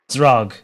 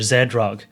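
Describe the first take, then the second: First: The name is said as a single syllable. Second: The name is split into two syllables. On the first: The speaker calls it right. "one syllable" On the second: The speaker calls it wrong. "rather than Z-Rog"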